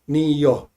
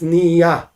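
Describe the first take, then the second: First: It is said with an Ashkenazi final o vowel. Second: It is said with a Sephardic final a vowel. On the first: "in Chabad, we say niyo, like with an O"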